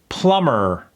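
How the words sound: The final R is strong, American-sounding. The speaker calls it right. "really pronounce that R"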